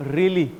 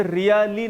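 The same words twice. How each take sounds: First: Really with a slight pause after ree, then lee; correct pronunciation. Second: Really said as ree-ya-lee, the wrong way; wrong pronunciation. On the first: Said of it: "री बोलने के बाद में बहुत हल्का सा pause है". (really में री पर हल्का रुककर ली) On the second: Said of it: "ये really नहीं है". (really का गलत उच्चारण री-या-ली) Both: Shown as a demonstration.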